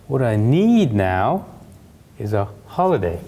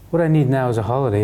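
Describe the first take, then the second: First: The key words 'a holiday' are stressed. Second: The key words get no extra stress. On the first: The speaker calls it right. "but ... remember to stress the key information with your voice" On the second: The speaker calls it wrong.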